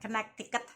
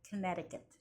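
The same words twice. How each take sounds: First: The middle c is pronounced as a k. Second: The middle c is silent. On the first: The speaker calls it wrong. "bukan Connecticut" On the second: The speaker calls it right. "Gitu cara bacanya"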